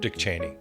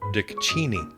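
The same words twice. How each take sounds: First: The surname has its common, widespread pronunciation. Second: The surname has its owner's own pronunciation.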